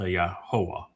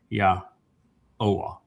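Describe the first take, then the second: First: An h sound comes before the o sound. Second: No h sound comes before the o sound. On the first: The speaker calls it wrong. "not uh, yahoah" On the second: The speaker calls it right. "so it's ya oa"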